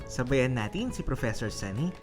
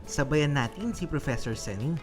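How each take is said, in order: The two takes are said the same way.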